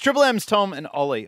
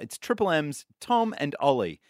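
First: It is said very fast. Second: It is said more slowly.

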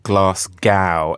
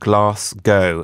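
First: Glasgow is said with an American-style pronunciation. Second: Glasgow is said with a local British pronunciation. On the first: The speaker calls it wrong. "not Glasgow, as I just keep hearing on CNN" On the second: The speaker calls it right. "Just for anyone in Glasgow"

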